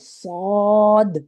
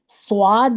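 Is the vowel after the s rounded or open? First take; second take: open; rounded. First: An open a-like vowel follows the s. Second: A rounded w-like sound follows the s. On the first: The speaker calls it right. "सौद अलिफ की आवाज़ आएगी" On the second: The speaker calls it wrong. "वाव की आवाज़ नहीं आनी चाहिए"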